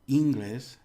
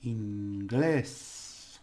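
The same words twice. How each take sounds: First: The stress is on the first syllable. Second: The stress is on the last syllable. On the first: It means groin. The speaker calls it wrong. "if you put the stress here, it means another word altogether" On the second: It means English. The speaker calls it right. "the stress and the vowels are inglés"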